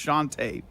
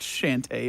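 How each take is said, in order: First: The name does not sound like 'shanty'. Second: The name sounds like the word 'shanty'. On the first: The speaker calls it right. "it's Shantae" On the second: The speaker calls it wrong. "Why did you say it like sea shanty? It's not Shantae"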